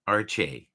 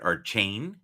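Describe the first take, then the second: First: The name ends in an open 'ay' sound. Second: The name ends in an 'ain' sound with n. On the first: "supposedly it's supposed to be said Arche, like almost like Arch A" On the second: "Now I've heard Archain"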